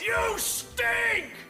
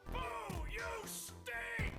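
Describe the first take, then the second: First: It is said much more loudly. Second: It is said fairly quietly. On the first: The speaker calls it right. "How about this?" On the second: The speaker calls it wrong. "that wasn't loud enough"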